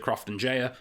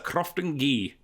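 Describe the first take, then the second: First: The name ends with a soft 'jaya' sound. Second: The name ends with a hard 'ghee' sound. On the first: The speaker calls it wrong. "I've always pronounced it Crofton Jaya, and apparently I'm wrong" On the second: The speaker calls it right. "which is apparently how you're supposed to pronounce it"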